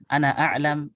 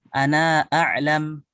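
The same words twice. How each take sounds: First: The final vowel of ana is short. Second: The final vowel of ana is lengthened. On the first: "tetap dibaca pendek ya" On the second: "maka kita panjangkan lafadz ananya"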